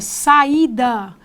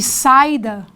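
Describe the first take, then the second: First: The a and i are drawn out separately. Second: The a and i run together quickly. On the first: The speaker calls it right. "eu percebo essa demora" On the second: The speaker calls it wrong. "em vez de"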